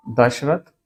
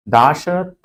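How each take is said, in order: First: दशरथ with a short first a, rising at the end; base form, short a. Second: दाशरथ with a long aa in दा; lengthened first vowel. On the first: Teacher giving the base word, दशरथ with short first vowel. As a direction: say दशरथ as dash-rath. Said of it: "आपने दशरथ पढ़ा होगा". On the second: Teacher showing the suffix change, दाशरथ with long aa. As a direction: stretch the first syllable of दाशरथ. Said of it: "दा हो जाएगा ये". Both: Shown as a demonstration.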